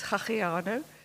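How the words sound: The name is said with an Afrikaans accent. This is how it is said in Stellenbosch. "in Stellenbosch, it becomes"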